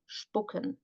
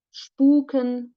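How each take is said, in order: First: "Spucken" with a short, lax u, softer; short vowel. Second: "Spuken" with a long, held oo; long vowel. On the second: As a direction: stretch the u in "Spuken". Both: Shown as a demonstration. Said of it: "difference between a long and a short vowel".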